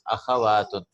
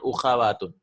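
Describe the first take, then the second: First: The word begins with an 'a' vowel. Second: The word begins with a 'u' vowel. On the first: The speaker calls it right. "It is akhawatun" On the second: The speaker calls it wrong. "It's not ukhawatun"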